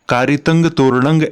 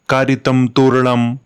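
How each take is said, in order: First: Both words end with an 'ng' sound. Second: Both words end with an 'm' sound. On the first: It is read the Prakrit way. The speaker calls it right. "ऐसे ही पढ़ा जाएगा इसे" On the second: It is read the Sanskrit way. The speaker calls it wrong. "इसे हम संस्कृत की तरह नहीं पढ़ेंगे ... इसको ऐसे नहीं पढ़ा जाता है"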